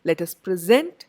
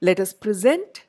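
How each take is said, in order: Both takes have the same delivery.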